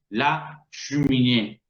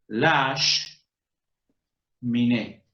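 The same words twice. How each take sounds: First: The first e of cheminée is clearly pronounced. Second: The first e is dropped, sh joins la. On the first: The speaker calls it wrong. "a ningún francés le va a ocurrir decir" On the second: The speaker calls it right. "Corta la palabra siguiente y la pega a la anterior"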